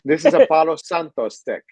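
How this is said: Palo Santo is said with a Spanish accent.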